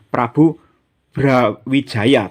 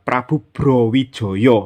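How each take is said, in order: First: The name's vowels are pronounced as a. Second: The name's vowels are pronounced as o. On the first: "meskipun tulisannya pakai A" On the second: "menurut ejaan Mataram itu dibaca Prabu Browijoyo ya"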